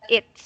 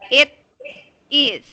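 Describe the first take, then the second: First: The two words are contracted into one syllable. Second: The two words are said separately, not contracted. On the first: The speaker calls it wrong. "You do uh you don't need to just I mean read that it's" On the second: The speaker calls it right. "it is separated. So you should read this as um a single word. Like it is"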